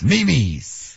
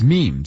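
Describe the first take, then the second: First: The word is said as two syllables. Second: The word is said as one syllable. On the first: The speaker calls it wrong. "Not Mimi's" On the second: The speaker calls it right. "how do you guys pronounce it? It's memes"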